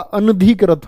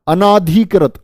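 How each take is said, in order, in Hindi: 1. 'an' के बाद छोटा 'a' स्वर आता है। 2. 'an' के बाद लंबा 'aa' स्वर आता है। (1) "अनधिकृत होता है" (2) "आ लगा देते हैं"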